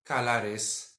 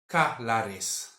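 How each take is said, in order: The two takes are said the same way.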